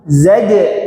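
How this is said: The word starts with z, then j. The speaker calls it right. "Zai dulu baru jim"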